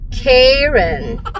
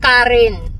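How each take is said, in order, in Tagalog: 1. Binibigkas ang pangalan sa paraang Amerikano. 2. Binibigkas ang pangalan sa paraang Pilipino.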